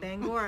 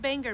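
First: The second syllable rhymes with 'gore'. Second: The second syllable does not rhyme with 'gore'. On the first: The speaker calls it right. "Bangor as in Al Gore" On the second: The speaker calls it wrong. "But he says Bangor, Maine"

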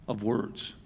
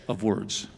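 Both takes have the same delivery.

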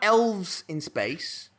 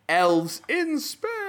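First: It is said plainly, without extra energy. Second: It is said loudly with dramatic energy. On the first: The speaker calls it wrong. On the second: The speaker calls it right.

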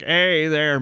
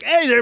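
First: The line is delivered slowly and drawn out. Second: The line is delivered quickly and zippily. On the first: "he's playing Bender a lot like slower" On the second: "later he just gets a lot zippier"

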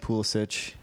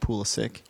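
First: The name is said with the traditional pronunciation. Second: The name is said with American pronunciation. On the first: This is the family's original pronunciation. "it was probably traditionally Pulisic" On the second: This is the pronunciation adopted in the U.S. "when he came, came to the U.S., it's probably went to Pulisic"

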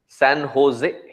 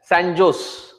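First: The J is said like an H sound. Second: The J is said like an English J. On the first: This is how it is said locally. The speaker calls it right. "we recognize that it is San Jose. What happened to the J? In the Spanish language, J becomes H" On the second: This is how it was said before arriving. The speaker calls it wrong. "coming from India, we would always say it as Sanjos"

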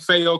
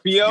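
First: The name does not rhyme with Geo. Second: The name rhymes with Geo. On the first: The speaker calls it right. "saying Fayo correctly" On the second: The speaker calls it wrong. "they kind of think of like a Geo... so they just pronounce it Fio"

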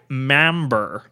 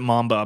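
First: The word ends with an added r sound. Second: The word ends in a plain vowel, no r. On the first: "as all the British people refer to it in this movie" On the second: "I pronounce it mamba"

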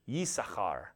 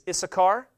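First: The name begins with a Y sound. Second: The name begins with a plain vowel, no Y.

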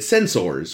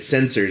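First: The word is pronounced with exaggerated, careful emphasis. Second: The word is pronounced loosely, sounding close to senses. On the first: The speaker is guarding against an accent slipping out. "a very, you know, Mr. Spock way to say sensors" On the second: The speaker's natural accent shows through. "If he just said sensors, it would become like senses"

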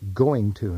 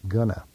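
First: Both words are said fully and separately. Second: The words are squeezed into one reduced word. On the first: The speaker calls it right. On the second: The speaker calls it wrong. "not gonna"

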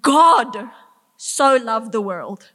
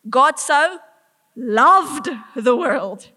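First: The stress is on 'God'. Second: The stress is on 'loved'. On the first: It is the maker of the universe who loved. "The maker of the universe loved what he created" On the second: It was real love, not mild liking. "Not mildly kind of enjoy, loves"

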